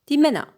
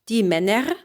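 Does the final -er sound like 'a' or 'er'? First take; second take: a; er. First: The final -er is reduced to an 'a' sound. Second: The final -er is said fully as written. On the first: The speaker calls it right. "you make it an a" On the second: The speaker calls it wrong.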